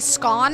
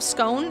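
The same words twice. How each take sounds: First: It is pronounced the British way. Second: It is pronounced a non-British way. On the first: The speaker calls it wrong. "when I hear British people say scone" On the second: The speaker calls it right. "instead of scone"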